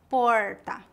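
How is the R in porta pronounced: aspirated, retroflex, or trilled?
retroflex. The R is curled back, like English R. This is how people speak in inland São Paulo state. "No interior, o R é retroflexo, como o R do inglês"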